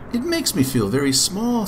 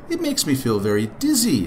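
First: Put-on high, childlike voice; high-pitched storybook child; small boy Jack. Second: Understated storybook chuckle in the voice; lightly laughing lion, little real laughter; mildly amused lion. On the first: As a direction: speak up high as a little boy. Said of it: "said Jack". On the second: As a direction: say it with a touch of amusement. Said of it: "laughed the lion". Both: A narrator's reading.

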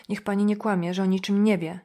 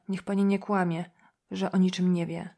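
First: Mildly raised, pressing plea; insistent accusation. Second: Said in the usual way. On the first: A narrator's reading. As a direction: press the accusation with restrained upset. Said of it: "Kobieta krzyczała i płakała jednocześnie". (z naciskiem, lekko podniesionym głosem) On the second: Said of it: "Wyrzucała z siebie słowa".

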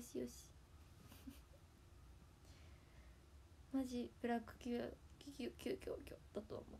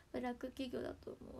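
First: Softer, unvoiced laughing whisper of ブラック企業; laughing mutter. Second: Said in the usual way. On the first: Real, not acted. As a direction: breathe ブラック企業 out under a laugh. Muttered to herself through laughter. (笑いながら小声でつぶやく)

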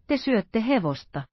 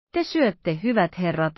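First: Te syötte hevosta pressed home heavily; weighty. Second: Te syötte set down heavily; weighty. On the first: Athos reveals the meal is horse, weighty. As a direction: drop the news with weight. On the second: Athos gravely tells his friends what they are eating, weighty. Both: A narrator's reading. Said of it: "sanoi Athos painavasti".

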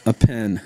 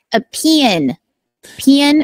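First: PEN said evenly in one syllable, slowly; saying pen on request. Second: Higher Rock Hill drawl, PEN as 'pee-en'; Rock Hill accent. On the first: Host answers what you write with, careful pen. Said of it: "Say what this is". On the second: Guest demonstrates her home dialect, Rock Hill accent. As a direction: stretch pen into two Rock Hill syllables. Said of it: "the Rock Hill accent, it's like". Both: Shown as a demonstration.

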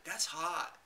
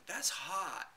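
First: Said in the usual way. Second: Breezy socialite purr on "That's hot."; Paris Hilton catchphrase. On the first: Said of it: "I just typed it". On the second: Retold or imitated. Imitating Paris Hilton's catchphrase in a chat room. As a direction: drop it like a bored celebrity. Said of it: "she would always go".

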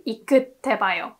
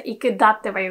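First: "Ikutte ba yo" with "iku" running straight into "tte"; no "da" syllable. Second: "Ikudatte ba yo" with "da" inserted after "iku"; extra "da" syllable. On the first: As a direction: say "Ikutte ba yo" as i-kut-te-ba-yo. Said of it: "we say". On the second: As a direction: say "Ikudatte ba yo" as i-ku-dat-te-ba-yo. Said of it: "So we don't say". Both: Shown as a demonstration.

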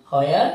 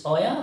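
First: WHERE with an h sounded at the start; wrong pronunciation. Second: WHERE said with a plain w start, no h sound; right pronunciation. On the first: Teacher showing learners what to avoid, WHERE with a sounded h. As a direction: say WHERE as "hwere", aspirated. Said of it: "বা not where". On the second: Teacher showing learners the right pronunciation, WHERE without an h. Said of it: "right pronunciation হলো". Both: Shown as a demonstration.

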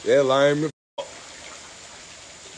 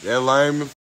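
First: Stretched way out, slow and softer; slow drawn-out mock. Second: Said in the usual way. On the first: Teasing his friend, a slow drawn-out softer jeer. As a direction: drag every word out slowly. Mocking the friend's weak move.

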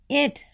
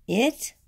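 First: High, short storybook holler; lightly acted child's eager call; mock holler. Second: IT raised into a puzzled question; high, rising IT, as a teacher querying it; questioning echo. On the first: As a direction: call out IT high, without real volume. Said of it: "hollered Amelia Bedelia". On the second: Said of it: "said Miss Edwards". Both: A narrator's reading.

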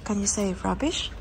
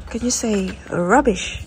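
First: Said in the usual way. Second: Slow, clear teaching voice. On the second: Shown as a demonstration. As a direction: model it slowly so a child can copy.

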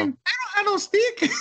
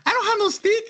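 First: Slow, much higher mock voice, laughing through it; replaying the stick woman as Consuelo, laughing; Consuelo impression. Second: Much higher mock voice of a woman denying it; mocking the stick woman in a high falsetto; Consuelo impression. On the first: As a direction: drag out the denial in a cartoon falsetto, cracking up. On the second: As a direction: squeak out the denial like a cartoon maid. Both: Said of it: "she was like the Consuelo from Family Guy".

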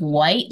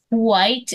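First: Said in the usual way. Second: "white" said as "hwite"; "white" with an aspirated WH, grandpa's way; old-fashioned WH sound. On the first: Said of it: "instead of white". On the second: Shown as a demonstration. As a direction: breathe an H before the W in "white". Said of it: "my grandpa would say".

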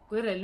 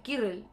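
First: "Quirrell" said with a kw glide, as "kwee-rel"; alternative pronunciation. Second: "Quirrell" said with a plain k, as "kee-rel"; trying a pronunciation. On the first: Streamer checking the name "Quirrell" as "kwirel", questioning pronunciation. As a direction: say "Quirrell" with a w after the k. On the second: Streamer testing the name "Quirrell" as "kirel", tentative pronunciation. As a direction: say "Quirrell" without the w glide, like "kirel". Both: Shown as a demonstration. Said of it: "Quirrell se pronuncia".

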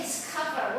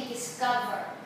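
First: "discover" with a clear k sound; aspirated k. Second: "discover" with the k softened towards a g; in "discover", let the c sound nearly like g, no puff of air; unaspirated k. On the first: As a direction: say "discover" with a puff of air on the c. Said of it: "但你要念discover，". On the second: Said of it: "爆裂音或破裂音都會變成飽和手". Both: Shown as a demonstration.

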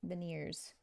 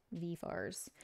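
First: Said in the usual way. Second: VENEERS as "V fars" in attempted Australian; badly faked Australian pronunciation, "V fars"; attempted Australian accent. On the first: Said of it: "I'm probably saying that wrong". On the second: Shown as a demonstration. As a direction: try an Australian "V fars", unsure of it. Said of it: "not saying it with the right accent".

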